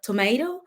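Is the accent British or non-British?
non-British. It is said in a non-British accent. This is how people say it elsewhere. "instead of"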